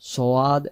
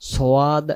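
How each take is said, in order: First: The name has a w-like glide after s. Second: The name has a w-like glide after s.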